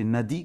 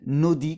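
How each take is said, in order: First: The first vowel is an open a sound. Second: The first vowel is a rounded o-like sound. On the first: This is how it is usually said here. "c'est Nadi, comme on dit" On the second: This is how local speakers say it. "Nodi, comme ils disent, hein, les petits A sont, sont prononcés un peu haut"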